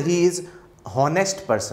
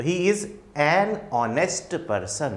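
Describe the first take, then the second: First: "He is honest person" with no article before honest; the faulty "honest person", said at normal pace; wrong version, article missing. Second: "He is an honest person" very slowly, word by word; slow teacher's model with "an" clearly set before "honest"; correct model sentence. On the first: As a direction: run "is" straight into "honest", as a mistaken example. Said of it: "ऐसे नहीं बोलते". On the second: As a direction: spell out "an honest" slowly, h silent. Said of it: "इस तरह से यहाँ ध्यान रखना". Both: Shown as a demonstration.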